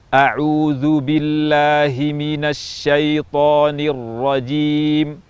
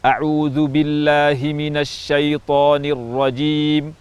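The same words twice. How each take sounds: First: It is recited at a medium pace. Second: It is recited at a fast pace. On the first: "tempo pertengahan atau at-tadwir" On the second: "tempo cepat atau al-hadr"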